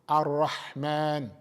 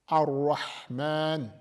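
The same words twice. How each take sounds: Both takes have the same delivery.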